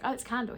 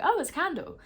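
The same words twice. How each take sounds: First: Said in the usual way. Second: Mock surprise. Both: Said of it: "I was like".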